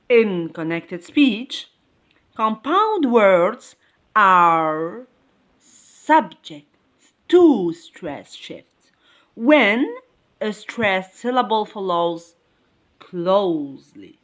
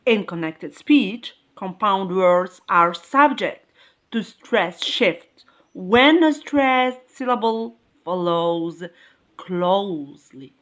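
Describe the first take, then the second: First: Slow dictation, broken into short word groups; slow repeat. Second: Said in the usual way. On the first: Shown as a demonstration. Teacher repeating a rule for the class, slow and segmented. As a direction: repeat it slowly, pausing between phrases. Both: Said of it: "I repeat".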